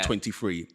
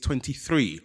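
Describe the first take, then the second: First: The word 'three' begins with an f sound. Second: The word 'three' begins with a th sound. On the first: This is how the speaker said it on air. The speaker calls it wrong. "not twenty-three" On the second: This is the pronunciation complainers demanded. The speaker calls it right. "it's twenty-three"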